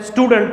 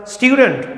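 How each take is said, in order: First: स्टूडेंट as stoo-dent, full e; wrong common pronunciation. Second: स्टूडेंट as styoo-dunt; correct pronunciation. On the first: Teacher quoting the common mistake, plain stoo-dent. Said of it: "wrong है". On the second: Teacher modelling the correct word, styoo-dunt. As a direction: glide into styoo, weak dunt at the end of स्टूडेंट. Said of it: "correct अगर, अगर pronunciation करना है". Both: Shown as a demonstration.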